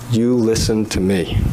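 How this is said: It is said in a stern, warning voice.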